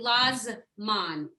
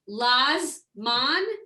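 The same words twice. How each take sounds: First: The short middle vowel is pronounced. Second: The short middle vowel is dropped. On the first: The speaker calls it right. "it's actually Lazman. Like you just give it a little" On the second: The speaker calls it wrong. "instead of saying Lazman"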